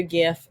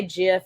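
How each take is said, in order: First: "gif" with a hard G, as in gift. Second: "gif" pronounced like jif; soft G. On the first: Naming her go-to meme, "gif" with hard G. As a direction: say "gif" starting like "graphic". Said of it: "if you say". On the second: Challenging those who say it wrong, "gif" as jif. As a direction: say "gif" with a J sound at the start. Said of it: "a soft G instead of a hard G". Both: Shown as a demonstration.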